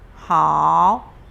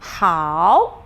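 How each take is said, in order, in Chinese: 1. 听起来封闭而阴郁。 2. 听起来明亮而开阔。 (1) "你在讲好的时候不能够好" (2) "像那种很开心的，这个眉毛跟颧骨这边都可以打开"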